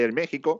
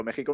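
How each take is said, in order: First: "México" said with a hint of Mexican accent. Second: Said in the usual way. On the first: Shown as a demonstration. Commentator shows co-host how "México" slips out, Mexican accent. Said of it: "me sale ahí el México". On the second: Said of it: "cada vez que digo México".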